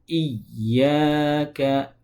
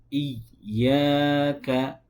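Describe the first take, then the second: The two takes are said the same way.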